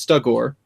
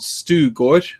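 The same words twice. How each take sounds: First: The name is said with an English pronunciation. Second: The name is said with a Swedish pronunciation.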